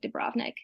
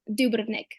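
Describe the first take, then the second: First: It is said in an American English way. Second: It is said in a Croatian way. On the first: "a lot of Americans say like Dubrovnik" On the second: "And how would you say it?"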